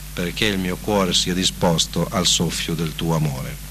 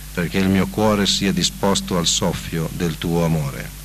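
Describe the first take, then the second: Both takes have the same delivery.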